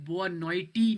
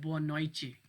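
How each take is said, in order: First: Noite ends with a plain t sound. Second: Noite ends with a ch sound. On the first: The speaker calls it wrong. "मैंने इसको बोआ नोइटी नहीं पढ़ा" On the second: The speaker calls it right. "टी है वो पुर्तगीज़ में चे की आवाज़ निकालते हैं"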